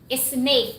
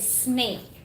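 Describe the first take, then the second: First: An extra vowel sound comes before the s. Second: The word starts directly with the s sound. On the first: The speaker calls it wrong. "there are some Filipinas saying snake" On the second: The speaker calls it right. "instead snake"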